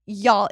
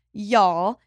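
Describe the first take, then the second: First: Said in the usual way. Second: Slight Southern twang on "y'all"; Southern accent. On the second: Real, not acted. Host restarts her hiring point, slipping into a Southern accent. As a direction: let "y'all" slip out louder, with a Southern lilt. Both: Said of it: "I just gave that an accent".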